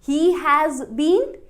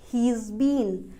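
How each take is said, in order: First: He has is said as two full words. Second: He has is shortened to he's.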